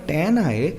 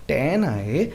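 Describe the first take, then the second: The two takes are said the same way.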